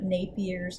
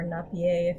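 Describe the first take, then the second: First: The name is pronounced the English way. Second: The name is pronounced the French way.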